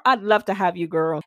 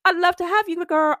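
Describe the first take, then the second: First: Said in the usual way. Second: Higher and louder, gushing; excited invite. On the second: Shown as a demonstration. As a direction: sing it out, thrilled to have her. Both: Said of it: "repeats the line twice".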